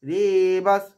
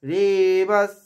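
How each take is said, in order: No difference in how they are said.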